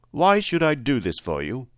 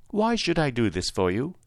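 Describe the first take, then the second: First: Challenging question, higher on WHY; a hint of an imposing wizard; lightly voiced Great Oz. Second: Higher, queenly questioning; a hint of a gracious sovereign; lightly voiced lovely lady. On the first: Great head challenges little Dorothy's request, lightly voiced wizard. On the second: Winged lady questions the scarecrow's request, lightly voiced, higher. Story figure, the lady asks.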